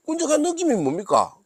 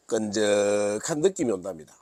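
First: Much higher, puzzled "끈적한 느낌이 뭡니까?"; "느낌이" pitched way up in disbelief; incredulous question. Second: Said in the usual way. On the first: Pretend. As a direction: ask like you can't believe the phrase. Incredulous question about the phrase.

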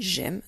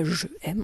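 First: "j'aime" run together as one syllable; elided form. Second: "je aime" as two separate words, "je" fully sounded; unelided form. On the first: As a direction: join "j'aime" with no vowel after the j. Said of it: "on dit j'aime". (« j'aime » avec élision, en une syllabe) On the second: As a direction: split "je aime", keeping the vowel of "je". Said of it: "on dit pas je aime". (« je aime » sans élision, en deux mots) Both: Shown as a demonstration.

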